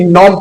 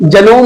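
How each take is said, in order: First: The word starts directly with an N sound. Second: A G sound is heard before the N. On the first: The speaker calls it right. "बल्कि नॉम पढ़ेंगे" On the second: The speaker calls it wrong. "जनोम नहीं पढ़ेंगे"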